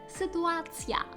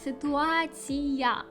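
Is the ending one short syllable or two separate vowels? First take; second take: one syllable; two vowels. First: The ending is one short syllable with a y-glide. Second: The ending has two separate vowels, i then a. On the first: "В польській це буде дуже коротке" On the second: "в українській ... в нас є і-а"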